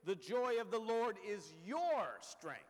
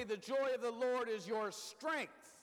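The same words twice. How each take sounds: First: "your" said with the main weight; stress on your. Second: "joy" said with the main weight; stress on joy. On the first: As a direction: lean on the word "your". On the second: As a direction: lean on the word "joy". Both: Shown as a demonstration. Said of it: "Or you might say".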